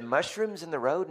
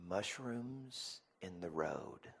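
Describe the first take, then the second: First: High-pitched puzzled question; incredulous echo. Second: Put-on slow, quiet child's reply; son's answer. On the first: Retold or imitated. Dad echoing his son's odd answer, incredulous. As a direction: repeat it back in disbelief, pitch lifted. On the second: Son answering dad what angers him, slow and quiet. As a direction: give it slowly and softly, imitating a young son.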